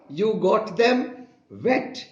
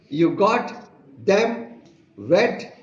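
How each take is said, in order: First: It is said in plain standard English. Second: It is said with a heavy foreign accent. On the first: "The correct sentence is" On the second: "He pronounced"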